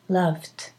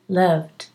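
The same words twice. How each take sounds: First: The word ends with a voiceless T sound. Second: The word ends with a voiced D sound. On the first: "but you can say loved, with a T. It's okay" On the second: "loved is a D, D"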